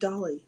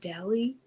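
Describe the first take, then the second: First: The first vowel sounds like in 'hot'. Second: The first vowel sounds like in 'cat'. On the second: "Like, don't dally?"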